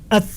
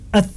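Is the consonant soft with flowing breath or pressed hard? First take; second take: pressed hard; pressed hard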